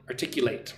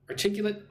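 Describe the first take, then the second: First: It uses the verb pronunciation of the word. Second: It uses the adjective pronunciation of the word. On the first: The word is the action of expressing something clearly. "She can articulate the problem well" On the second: The word describes someone who speaks clearly. "She is articulate"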